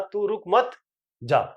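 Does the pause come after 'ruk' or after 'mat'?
after mat. There is a pause after 'mat'.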